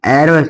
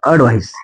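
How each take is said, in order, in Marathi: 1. पहिला स्वर उघडा आहे, 'cat' मध्ये आहे तसा. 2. पहिला स्वर छोटा आहे, 'cup' मध्ये आहे तसा. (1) "ॲडव्हाइस नाही" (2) "अडव्हाइस अ म्हणायचं"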